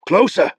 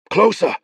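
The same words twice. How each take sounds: First: Repeated order. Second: Urging. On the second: Beron urging rowers on. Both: Acted.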